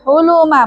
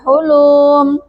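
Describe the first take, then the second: First: All the vowels are said short. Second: One vowel is drawn out long. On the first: The speaker calls it right. "dibaca pendek semua, tidak ada yang panjang" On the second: The speaker calls it wrong.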